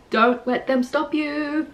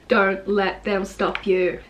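First: Slow, high-pitched "Don't let them stop you"; raised, insistent repeat. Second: Slow, even "Don't let them stop you"; even, deliberate repeat. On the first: Poet repeating a line in a different way, raised and insistent. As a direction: lift the line high and hold it up through "you". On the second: Poet repeating a line for emphasis, slow and even. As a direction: say it slowly at normal pitch, evenly spaced. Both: Shown as a demonstration. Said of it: "repeating the lines in different ways".

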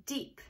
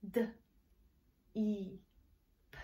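First: Said in the usual way. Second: "D", long "E", "P", each sound alone. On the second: Shown as a demonstration. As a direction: softly sound out "D, E, P" with pauses. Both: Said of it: "get the blend?".

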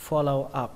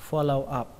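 The two takes are said the same way.

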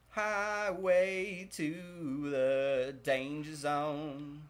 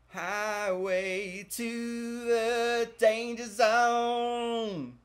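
First: Slow, stretched sung line; sung, sung song line. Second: Sung, high, loud, slow belted chorus; sung, belt the chorus all the way up; sung, belted song line. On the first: Streamer singing a rock song line slowly over gameplay. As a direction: croon it out slow. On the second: Sung, streamer belting the rock chorus, loud, high and slow. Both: Pretend.

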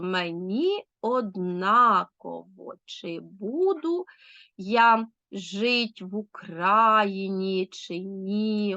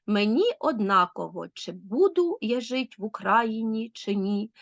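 First: Very slow «мені однаково, чи буду я жить в Україні, чи ні», syllable by syllable with beats stressed; «мені однаково, чи буду я жить в Україні, чи ні» drawn right out, stresses marked; stressed scansion. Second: Said in the usual way. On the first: Shown as a demonstration. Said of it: "Ну, а тепер наголошую". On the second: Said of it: "Відчули ритм?".

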